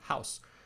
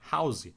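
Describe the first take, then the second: First: It ends on the s with no vowel. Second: It ends with an added vowel after the s. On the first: The speaker calls it right. "é pronunciado house, mas no final da palavra tem um E e esse E é mudo" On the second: The speaker calls it wrong. "pronunciando esse vogal no final da palavra"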